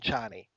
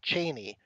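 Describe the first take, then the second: First: The name does not sound like Cheney. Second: The name sounds like the surname Cheney. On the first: The speaker calls it right. "rather than Chani" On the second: The speaker calls it wrong. "Cheney just makes me think of someone else completely"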